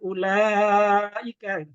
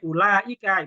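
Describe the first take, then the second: First: The middle vowel is held long. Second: The middle vowel is held short. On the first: The speaker calls it right. "harus dipanjangkan" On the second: The speaker calls it wrong. "itu nggak boleh"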